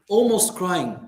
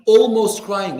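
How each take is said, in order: First: Said in the usual way. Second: "Almost crying" said again louder, pushed hard; emphatic repeat. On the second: Shown as a demonstration. Preacher stressing to the congregation, louder emphasis. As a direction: hit "Almost" harder on the repeat.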